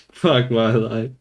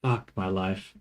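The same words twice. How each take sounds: First: Laughing, slow and louder; laughing despair. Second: Said in the usual way. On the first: Real, not acted.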